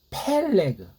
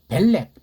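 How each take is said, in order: First: The name begins with an aspirated p sound. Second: The name begins with a soft b sound. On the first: The speaker calls it right. "펠레그라고 해야죠" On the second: The speaker calls it wrong. "일본 소리를 빙자한 변질된 한글로 벨레그"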